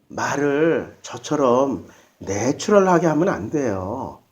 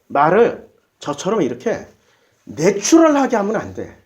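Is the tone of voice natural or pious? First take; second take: pious; natural. First: It is said in a put-on, pious holy tone. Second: It is said in a plain, natural speaking tone. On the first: "언제나 거룩한 말투가 있어요. 이거는 이제 좀 어린아이 버전이고"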